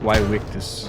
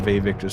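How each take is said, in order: First: It begins with a W sound. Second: It begins with a V sound. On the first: This is the historically correct pronunciation. The speaker calls it right. "Supposedly it was pronounced like" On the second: This pronunciation is chosen because it sounds cooler. The speaker calls it wrong. "I think Vayvictus sounds a lot cooler"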